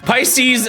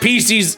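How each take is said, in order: First: The first vowel sounds like 'eye'. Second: The first vowel sounds like 'ee'. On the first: The speaker calls it right. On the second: The speaker calls it wrong.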